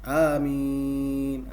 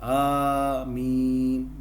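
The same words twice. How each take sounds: First: The first vowel is short. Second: The first vowel is long. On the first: The speaker calls it wrong. "A tu pendek" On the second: The speaker calls it right. "Panjangkan a dan jangan tasydid mim"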